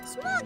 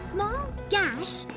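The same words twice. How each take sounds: First: The words are spoken loosely and without effort. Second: Every word is carefully and deliberately enunciated. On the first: It sounds like a child actually reacting. The speaker calls it right. "A kid would just be like" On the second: It sounds scripted rather than a real reaction. The speaker calls it wrong. "really enunciated too and, and like planned"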